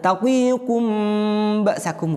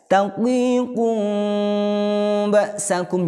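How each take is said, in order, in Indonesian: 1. Huruf m diucapkan dengan bibir tertutup rapat. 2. Huruf m tersembunyi dengan bibir sedikit renggang. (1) "bukan. Kalau itu mingkem" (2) "Jadi bukan mingkem ya"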